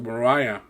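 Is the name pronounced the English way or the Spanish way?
English. The name is pronounced with an English accent.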